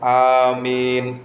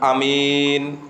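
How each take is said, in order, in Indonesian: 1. Vokal pertama dan kedua sama-sama panjang. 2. Vokal pertama pendek, yang kedua panjang. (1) "kalau amin itu alifnya dibaca panjang, mimnya dibaca panjang" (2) "Kalau mimnya tok yang dibaca panjang, alifnya nggak dibaca panjang"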